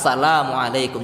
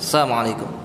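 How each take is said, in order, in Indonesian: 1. Salam itu diucapkan dengan hati-hati, setiap suku katanya jelas. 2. Salam itu diucapkan cepat dengan suku kata yang kabur. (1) "ya baca jelas-jelas" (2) "cepat-cepat gitu ya"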